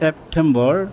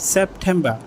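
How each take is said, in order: First: It is said with a local, non-British accent. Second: It is said with a British accent. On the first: The speaker calls it wrong. "আমরা শিখেছিলাম সেপ্টেম্বর" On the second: The speaker calls it right. "কিন্তু এটা প্রকৃতপক্ষে হবে সেপ্টেম্বর"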